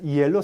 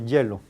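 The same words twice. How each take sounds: First: The word starts with a vowel-like glide. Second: The word starts with a consonant sound. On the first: The speaker calls it wrong. "No es hielo" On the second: The speaker calls it right. "no es ni vocal ni semivocal, es que una consonante"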